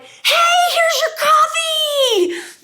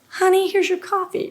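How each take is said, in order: First: It is said loudly with party-like excitement. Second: It is said quietly in a calm inside voice.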